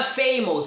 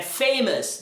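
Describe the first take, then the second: First: "famous" ending in a round -ohs; spelling-based "famous" with a full O; wrong pronunciation. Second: "famous" with a short -us ending; correct pronunciation. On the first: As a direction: say "famous" as FAY-mohs. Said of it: "Não é famous". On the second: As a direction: say "famous" as FAY-muhs. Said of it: "É famous". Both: Shown as a demonstration.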